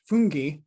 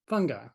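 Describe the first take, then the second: First: The word is pronounced the Italian way. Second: The word is pronounced the ordinary English way.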